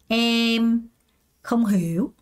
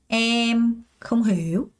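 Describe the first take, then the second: No difference in how they are said.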